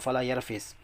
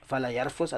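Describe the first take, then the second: First: The final syllable has an i vowel. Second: The final syllable has an u vowel. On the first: "wa kasriha" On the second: "Bi dhammil fa'i"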